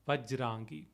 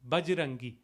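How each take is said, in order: First: The word begins with a V sound. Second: The word begins with a B sound. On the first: This is the Sanskrit form. "In Sanskrit, it would be Vajra Angi, Vajrangi" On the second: This is the colloquial Avadhi form. "Bajrangi is a again a colloquial way of pronouncing it"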